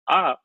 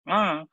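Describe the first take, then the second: First: The vowel is said without nasal sound. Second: The vowel is said with nasal sound. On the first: "instead of saying ah" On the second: "then it becomes Anunasika"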